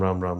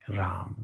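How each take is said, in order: First: It is said flatly and mechanically. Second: It is said warmly and joyfully.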